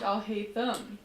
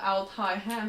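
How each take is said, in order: First: The name is split as 'Al' plus 'Haytham'. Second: The name is split as 'Altai' plus 'Ham'. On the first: The speaker calls it right. "his name's Al Haytham" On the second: The speaker calls it wrong. "I misread it. I called him alt-high ham"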